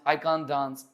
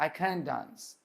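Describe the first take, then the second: First: It is said in an Indian English accent. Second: It is said in an American English accent. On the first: "अपन बोलते हैं जैसे कांट" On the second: "American बोलेगा"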